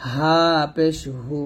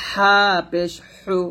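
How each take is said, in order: First: Slow easy হা and হু; unpressed air from throat start on হু; natural-breath ha. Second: Slow squeezed হা and হু; thin pressed air from mid-throat on হু; narrow-breath ha. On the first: Teacher drilling the second letter, natural-breath ha. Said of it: "স্বাভাবিকভাবে বাতাস". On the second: Teacher drilling the first letter, narrow-breath ha. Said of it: "চিকন বাতাস বের হবে". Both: Shown as a demonstration.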